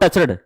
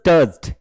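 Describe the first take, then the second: First: The ending is said as an extra syllable. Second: The ending is a bare consonant, no syllable. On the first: The speaker calls it wrong. "This is not टचड" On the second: The speaker calls it right. "This is टच्ड"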